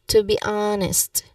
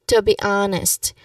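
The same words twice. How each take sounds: The two takes are said the same way.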